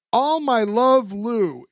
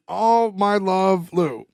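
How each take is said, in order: First: Slow letter reading. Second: Very slow, savoured reading; drawn-out sign-off. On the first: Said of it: "and goes". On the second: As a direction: drag out each word like a drunk signing off. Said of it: "you hear Lou going". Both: Retold or imitated.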